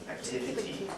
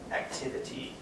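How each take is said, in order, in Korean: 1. 각 모음을 또렷한 제 소리대로 발음합니다. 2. 각 모음을 또렷한 제 소리대로 발음합니다.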